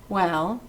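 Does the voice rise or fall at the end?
rise. The voice rises at the end, like a question. It asks something. The speaker calls it wrong.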